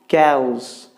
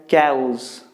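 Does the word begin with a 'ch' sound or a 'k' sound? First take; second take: k; k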